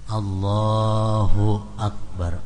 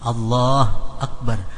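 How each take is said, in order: First: The hu is said with a short, light vowel. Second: The hu vowel is dropped entirely. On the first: The speaker calls it right. "mendammahkan ha dari perkataan Allahu dengan dammah yang ringan tanpa bersangatan" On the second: The speaker calls it wrong. "Hu jangan dimatii"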